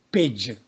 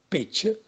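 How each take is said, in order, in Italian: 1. La consonante finale è una g sonora. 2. La consonante finale è una k sorda.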